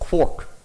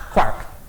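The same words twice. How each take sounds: First: The vowel does not rhyme with Irish Mark. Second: The vowel rhymes with Irish Mark. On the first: This is how the name's coiner says it. "says it's quark" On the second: This follows the rhyme in the source book. "quark has to rhyme with Mark"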